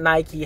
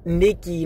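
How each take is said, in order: First: Nike said as NY-kee; Nike rhyming with "spiky"; usual brand pronunciation. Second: Nike said as NEE-kee; Nike rhyming with "leaky"; Greek pronunciation. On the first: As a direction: say Nike with a long I. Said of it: "not Nike". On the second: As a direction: say Nike with an EE in the first syllable. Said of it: "It's pronounced". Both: Shown as a demonstration.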